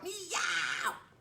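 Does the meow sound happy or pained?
pained. The meow sounds pained and suffering.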